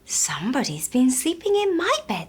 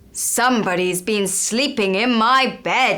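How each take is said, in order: First: A soft voice like Mama Bear. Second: A loud, deep voice like Papa Bear.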